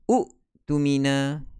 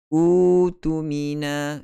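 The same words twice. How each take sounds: First: A glottal stop follows the first vowel. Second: The first vowel is lengthened without a stop. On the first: The speaker calls it wrong. "Campur dengan hamzah. Akan jadi u'tumina" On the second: The speaker calls it right. "ditukarkan kepada baris mat. Jadilah bacaannya u'tumina"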